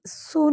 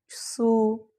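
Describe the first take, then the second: First: सू said abruptly, without lengthening the vowel; सू as one quick syllable, not drawn out; short vowel, wrong way. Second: सू with the ऊ drawn out long; सू held long, as a lesson example; long vowel. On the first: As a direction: cut the ऊ of सू short. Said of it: "हम सू नहीं बोलते ना, एकदम". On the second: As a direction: stretch the vowel of सू into one long tone. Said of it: "तो एक लंबा जाता है tone". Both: Shown as a demonstration.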